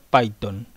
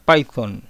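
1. La consonante del medio es un sonido t simple. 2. La consonante del medio es un sonido th suave. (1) "por comodidad la costumbre de pronunciarlo Python" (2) "La forma correcta de mencionar el nombre de este lenguaje sería Python"

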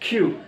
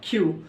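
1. k ধ্বনিতে বাতাসের জোরালো ফুঁ আছে। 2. k ধ্বনিতে বাতাসের কোনো ফুঁ নেই। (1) "খ এর মতো কিউ" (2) "কিউ উচ্চারণ করি আমরা কিউ"

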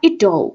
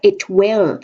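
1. ออกเสียงเป็นคำย่อสั้นๆ คำเดียว 2. ออกเสียงเป็นสองคำเต็มแยกกัน

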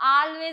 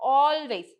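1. ആദ്യത്തെ സ്വരം തുറന്ന 'ah' ശബ്ദമാണ്. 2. ആദ്യത്തെ സ്വരം വട്ടത്തിലുള്ള 'aw' ശബ്ദമാണ്. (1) "പലരും ആൾവേസ് എന്ന് പറയാറുണ്ട്, പക്ഷെ അത് തെറ്റാണ്" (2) "നമ്മൾ ഓൾവേസ് എന്നാണ് പറയാ"

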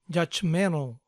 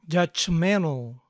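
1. El sonido de la T en medio se omite. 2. El sonido de la T en medio se omite.

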